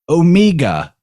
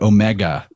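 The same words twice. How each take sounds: First: It is said in a New Zealand accent. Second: It is said in the speaker's own accent.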